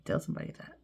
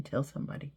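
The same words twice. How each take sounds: First: Soft whispered echo of "Tell somebody"; whispered repeat. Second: Said in the usual way. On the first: Shown as a demonstration.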